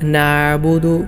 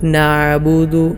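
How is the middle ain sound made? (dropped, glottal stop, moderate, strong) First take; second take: dropped; dropped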